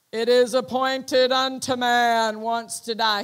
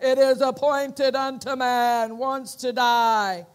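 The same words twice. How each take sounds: First: Loud, booming pronouncement; dramatic voice. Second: Loud, slow, booming doom voice; dramatic lowered voice. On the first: Voice in his head announcing death, loud and dramatic. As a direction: proclaim it like a voice from heaven. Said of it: "He said it was very dramatic". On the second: Preacher imitating Brother Hagin's dramatic voice, loud and slow. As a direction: intone it like a heavenly verdict. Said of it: "He lowers his voice like that". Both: Retold or imitated.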